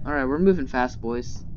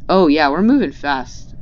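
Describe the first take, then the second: First: Said in the usual way. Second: Loud excited cheer; excited shout. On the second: Real, not acted. Excited cheer, repeated calmer.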